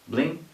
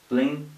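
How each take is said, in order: No difference in how they are said.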